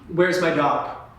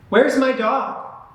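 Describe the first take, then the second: First: The voice sounds tired and bored. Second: The voice sounds confident and energetic. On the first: The speaker does not know what they are doing. The speaker calls it wrong. "I looked tired. I looked bored" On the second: The speaker wants to be there. The speaker calls it right. "You want to be nice and confident"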